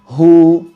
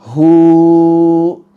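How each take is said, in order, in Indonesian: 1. Vokal ditahan sebentar lalu memudar dengan halus. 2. Vokal dipanjangkan jauh terlalu lama. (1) "dua harokat" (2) "Juga tidak dipanjangkan"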